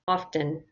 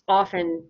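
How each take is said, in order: First: The T sound is pronounced very softly. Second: The T sound is left out completely. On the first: "you can say it just very soft" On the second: "just often with no T"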